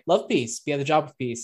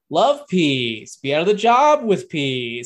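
First: The line is said in a relaxed, low-energy way. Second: The line is said in a forceful, high-energy way. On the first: This imitates the original casual delivery. The speaker calls it right. "doesn't kind of feel it" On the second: This imitates the replacement's overdone delivery. The speaker calls it wrong. "calm down, dude. Chill"

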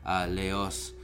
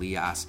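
First: The surname is pronounced the French way. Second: The surname is pronounced the English way. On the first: "That's the French pronunciation" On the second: "Liast is the English pronunciation"

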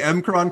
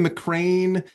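First: The name is said like 'M-Kron'. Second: The name is said like 'McCrane'. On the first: This is how the speaker has always said it. "I say the M-Kron crystal" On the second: This is how some other people say it. "some people say McCrane"

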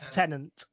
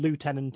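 First: It is said the British way, with an f-sound. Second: It is said the American way, starting with 'loo'. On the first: "Lieutenant is the British way" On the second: "and lieutenant is the American"

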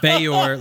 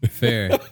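First: The name is said to rhyme with mayor. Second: The name is said like the word fair. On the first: "Fayor like mayor" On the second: "That's probably how I would pronounce it"

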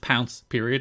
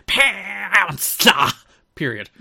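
First: The words are said flat without emphasis. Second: The words are said with strong dramatic emphasis. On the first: "didn't have the same quite emphasis here. It was literally just pounce period" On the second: "It wasn't like"

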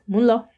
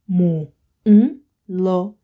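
First: The words are said fast and run together. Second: The words are said separately and slowly.

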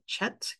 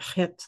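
First: It starts with a 'ch' sound as in church. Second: It starts with a rough throaty sound. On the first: The speaker calls it wrong. "English pe speaking people would pronounce it chet because it starts with a ch" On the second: The speaker calls it right. "like a very kind of guttural pronunciation"

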